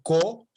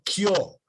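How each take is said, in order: First: The k sound is plain, without a y-glide. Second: The k sound is followed by a y-glide. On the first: "No decía co" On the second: "sino kio"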